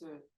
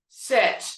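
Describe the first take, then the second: First: The word is said softly with a weak voice. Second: The word is said loudly with a projected voice. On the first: The speaker is a weak leader. The speaker calls it wrong. "not sit" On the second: The speaker is a strong leader. The speaker calls it right. "it also means you project your voice. You know how to say sit"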